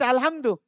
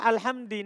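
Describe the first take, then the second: First: The word ends with a u vowel. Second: The word ends with an i vowel. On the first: The speaker calls it right. "harus dibaca dhamma" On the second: The speaker calls it wrong. "Enggak boleh"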